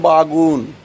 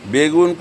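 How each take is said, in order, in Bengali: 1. প্রথম স্বরধ্বনিটি একটি a ধ্বনি। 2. প্রথম স্বরধ্বনিটি একটি e ধ্বনি।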